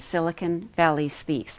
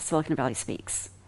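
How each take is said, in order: First: The words are separated by slight pauses. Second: The words are merged together without pauses. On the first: The speaker calls it right. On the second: The speaker calls it wrong.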